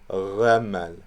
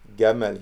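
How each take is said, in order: First: The first consonant is a soft fricative. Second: The first consonant is a hard stop. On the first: "in between Ghamal" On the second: "Gamal here"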